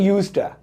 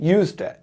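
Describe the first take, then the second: The two takes are said the same way.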